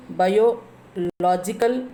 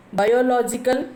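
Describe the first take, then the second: First: Biological slowly split, "bio" then a stressed "logical". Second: Said in the usual way. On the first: Shown as a demonstration. Teacher showing where stress falls, biological split before LOGICAL. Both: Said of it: "logical is the stressing".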